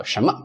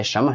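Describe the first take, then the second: First: 什么 as "shen-me", 什 rising; full pronunciation. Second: 什么 run together as "shem-ma"; casual dropped N. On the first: Teacher modelling the word, 什么 pronounced in full. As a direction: say 什么 carefully with the N and rising first syllable. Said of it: "You can't hear this N". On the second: Teacher imitating how people just say it, 什么 with N dropped. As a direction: say 什么 quickly, hardly any N. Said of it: "You can't hear this N that much". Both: Shown as a demonstration.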